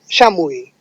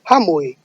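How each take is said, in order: First: It is said in the San Martin Quechua way. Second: It is said in the Cusco Quechua way.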